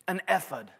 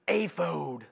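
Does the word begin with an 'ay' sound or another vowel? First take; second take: another vowel; ay. First: The word begins with a vowel other than 'ay'. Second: The word begins with an 'ay' vowel sound. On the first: The speaker calls it wrong. "I've been saying the word ephod for 25 years" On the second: The speaker calls it right. "the correct pronunciation, according to this commentary in a way, is aphod, A-Y-F-O-D-E"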